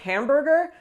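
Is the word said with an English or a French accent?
English. It is said with an English accent. The speaker calls it wrong. "they probably won't understand"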